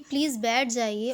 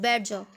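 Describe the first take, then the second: First: It is said in a calm, polite tone. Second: It is said angrily, like an order.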